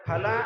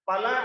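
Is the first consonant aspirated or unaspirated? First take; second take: aspirated; unaspirated. First: The first consonant is aspirated, a breathy ph. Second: The first consonant is unaspirated, a plain p. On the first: The word means fruit. "ಹಣ್ಣು ಹಂಪಲು ಅಂತ ಅರ್ಥ" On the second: The word means meat. "ಮಾಂಸ ಅನ್ನುವ ಅರ್ಥ ಇರುತ್ತೆ"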